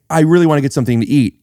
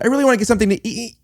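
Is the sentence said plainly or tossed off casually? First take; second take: plain; casual. First: It is said plainly and fully. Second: It is tossed off, with the end cut short. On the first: "instead of saying" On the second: "you throw it away ... at the very end, cut it off"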